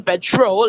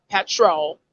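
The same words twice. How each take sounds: First: Petrol stressed as pe-TROL; everyday pronunciation. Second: Petrol stressed as PET-rol; first-syllable stress. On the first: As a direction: put the weight on petrol's second syllable. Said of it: "like every average person". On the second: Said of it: "you're not saying petrol like every average". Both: Shown as a demonstration.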